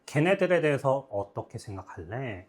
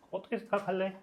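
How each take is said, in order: First: Said in the usual way. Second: Lifted pitch, eased volume; teacher's soft high model read; higher, softer rereading. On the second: Shown as a demonstration. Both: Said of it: "이겁니다".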